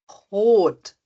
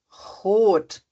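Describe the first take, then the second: No difference in how they are said.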